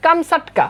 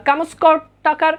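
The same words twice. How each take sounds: First: "কামসাটকা" said as kam-sat-ka; teacher's model of "কামসাটকা", kam-SAT-ka sounds; correct pronunciation. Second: "কামস্কটকার" read as spelt, with a "skot" cluster; the written form "কামস্কটকার", sounded out slowly; spelling pronunciation. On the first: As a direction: say "কামসাটকা" with "sat" in the middle, no "skot". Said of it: "মূল উচ্চারণ হচ্ছে". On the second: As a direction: say "কামস্কটকার" with s-k-o-t in the middle. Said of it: "এটার মূল উচ্চারণ কিন্তু আসলে এমন না". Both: Shown as a demonstration.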